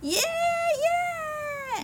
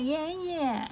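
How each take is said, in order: First: It is shouted very loudly. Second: It is said at normal volume.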